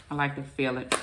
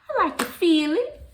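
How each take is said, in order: First: Said in the usual way. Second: High, loud, put-on voice on I like to feel it; playful silly voice on I like to feel it; odd put-on voice. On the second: Shown as a demonstration. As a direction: say it in a strange high breathy-sounding put-on voice. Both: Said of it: "Why am I saying it like that".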